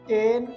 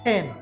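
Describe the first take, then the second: First: The first sound has no puff of air. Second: The first sound has a strong puff of air. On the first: The speaker calls it wrong. "নড়িচ্ছে না" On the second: The speaker calls it right. "কিন্তু বলবো টেন"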